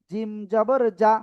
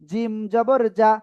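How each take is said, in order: Both takes have the same delivery.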